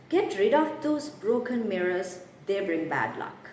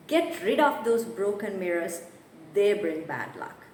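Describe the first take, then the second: No difference in how they are said.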